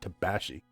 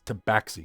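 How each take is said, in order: First: The word is said with a lisp. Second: The word is said clearly, without a lisp. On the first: The speaker calls it wrong. "you have a lisp" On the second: The speaker calls it right. "It's tabaxi"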